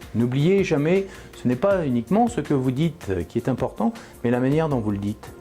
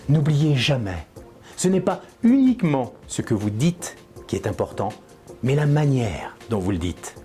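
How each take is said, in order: First: It is said in a flat, monotone voice. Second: It is said with conviction, stress and pauses.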